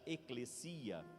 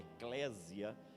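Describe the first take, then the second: First: It is pronounced the Greek way. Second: It is pronounced the Portuguese way. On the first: "no grego se pronuncia eclesia" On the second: "na nossa transliteração da língua portuguesa"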